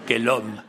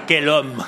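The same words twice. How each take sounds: First: Said in the usual way. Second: Quel homme! called out loud; emphatic exclamation. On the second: Retold or imitated. Translating the hitchhiker's message, loud exclamation. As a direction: boom it out in admiration. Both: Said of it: "Ça veut dire".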